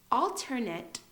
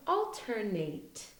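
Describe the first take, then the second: First: Careful ALTERNATE, final syllable like "nut"; alternate as noun. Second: Careful ALTERNATE with a long A at the end; alternate as verb. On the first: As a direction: ALTERNATE ending in a short "nit". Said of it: "is a noun". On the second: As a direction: ALTERNATE ending in a full "nate". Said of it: "Alternate is a verb". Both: Shown as a demonstration.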